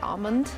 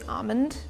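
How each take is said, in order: First: The L sound is pronounced. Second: The L sound is left out. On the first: "throw like that L back" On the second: "like dropping the L in entirety"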